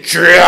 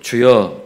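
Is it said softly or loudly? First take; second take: loudly; softly. First: It is said loudly and forcefully. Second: It is said softly and plainly.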